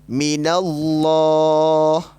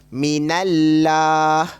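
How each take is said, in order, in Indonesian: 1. L dalam Allah itu tebal dan berat. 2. L dalam Allah itu tipis dan ringan. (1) "Bunyi dia akan jadi macam ni" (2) "Jangan baca minallah. Itu bacaan yang salah kerana tidak tebal"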